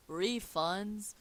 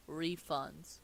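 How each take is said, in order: First: Raised-voice mild shout; half-hearted cry of alarm. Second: Said in the usual way. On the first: Acted. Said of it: "he shouts". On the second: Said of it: "a crafty smile forms across his face".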